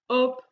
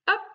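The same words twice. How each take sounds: First: It is said flatly, without raising the voice. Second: It is said with the voice raised, not shouted.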